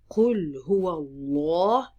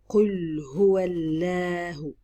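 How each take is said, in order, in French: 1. Le L dans Allah est lourd, venant de la gorge. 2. Le L dans Allah est léger et fin. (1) "je grasse bien mon lemme" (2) "je ne vais pas dire"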